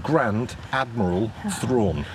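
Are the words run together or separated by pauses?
separated. The words are spoken separately with small breaks. The speaker calls it right. "I had to say it like that"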